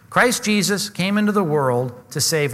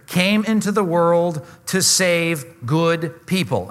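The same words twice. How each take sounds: First: Said in the usual way. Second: Slow, drawn-out misquote with good people stressed; slow, leading misreading ending on "good people"; deliberately wrong reading. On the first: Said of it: "what's the word?". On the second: Shown as a demonstration. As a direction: read it slowly, setting up the trap on good people. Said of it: "Underline the two words, "good people".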